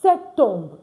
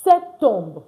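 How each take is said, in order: Both takes have the same delivery.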